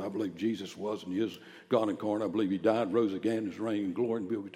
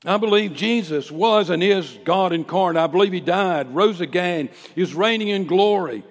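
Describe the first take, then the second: First: Reluctant recital. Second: Loud, high, ringing creed; bold public declaration. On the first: Retold or imitated. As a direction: reel it off without any preaching force. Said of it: "I'm not going out and say it just like that". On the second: Acted. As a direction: proclaim each belief at full preaching force. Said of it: "say it just like that".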